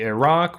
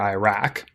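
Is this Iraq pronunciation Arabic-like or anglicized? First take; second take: Arabic-like; anglicized. First: It is pronounced close to the Arabic sound. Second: It is pronounced with an anglicized English sound. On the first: "which is more like how that um, sounds in Arabic" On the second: "Republicans were more likely to say Iraq or Iraq"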